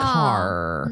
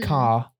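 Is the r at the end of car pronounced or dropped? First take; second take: pronounced; dropped. First: The final r sound is clearly pronounced. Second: The final r sound is dropped.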